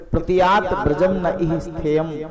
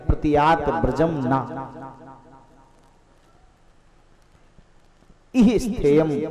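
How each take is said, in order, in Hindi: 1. विराम 'na' शब्द से पहले आता है। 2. विराम 'na' शब्द के बाद आता है। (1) "क्यों आई हो वापस चली जाओ" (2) "ना को यहां से उठा करके उधर कर दो"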